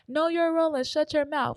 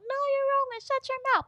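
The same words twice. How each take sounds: First: It is said in a normal adult voice. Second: It is said in a high child's voice.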